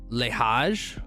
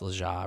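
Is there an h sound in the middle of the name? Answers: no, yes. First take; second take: yes; no. First: The name has an h sound in the middle. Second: The name has no h sound in the middle. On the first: "Is that how you pronounce that?" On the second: "There's no H, so it's Leja"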